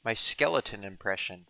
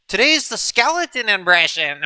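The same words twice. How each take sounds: First: Said in the usual way. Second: High, loud skeleton voice; talking skull. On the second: Pretend. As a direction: announce it in a cartoon skeleton voice.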